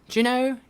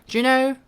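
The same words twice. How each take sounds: No difference in how they are said.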